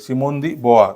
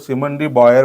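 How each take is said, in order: First: The surname ends with an open vowel. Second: The surname ends with an r sound. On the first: The speaker calls it right. "Correct उच्चार" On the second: The speaker calls it wrong. "असं काही होत नाही"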